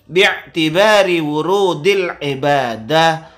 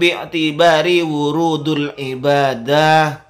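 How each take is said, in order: First: The middle word ends in an i vowel. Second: The middle word ends in a u vowel. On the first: The speaker calls it right. "Jadi yang betul" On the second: The speaker calls it wrong.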